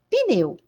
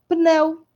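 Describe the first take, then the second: First: It is said with a Brazilian Portuguese pronunciation. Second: It is said with a European Portuguese pronunciation. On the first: "nós falamos pneu" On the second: "Nós não falamos pneu, como os lusitanos"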